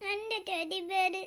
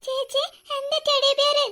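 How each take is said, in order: First: Put-on very soft, slow, half-asleep child; sleepy little boy murmuring about his teddy; drowsy murmur. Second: Put-on high, slow, childlike delight over എന്റെ teddy bear; small boy overjoyed to hold his teddy again; delighted child. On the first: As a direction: mumble എന്റെ teddy bear as if barely awake. Child half asleep, then delighted. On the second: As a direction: squeal it like a happy little boy. Child gets his teddy back.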